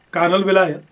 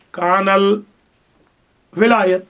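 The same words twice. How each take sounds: First: Said in the usual way. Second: کان الولایت drawn out very slowly, each syllable stretched; slow dictation. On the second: Shown as a demonstration. Teacher to students, dictating کان الولایت very slowly.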